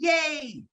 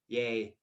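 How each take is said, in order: First: It is said with high, excited energy. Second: It is said flatly with low energy.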